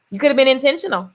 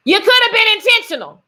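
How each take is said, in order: First: Said in the usual way. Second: Higher and louder, punching could; the repeat lands hard on could and intentional; emphatic repeat. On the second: Shown as a demonstration. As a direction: hammer the point home with could stressed. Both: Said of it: "repeated with force".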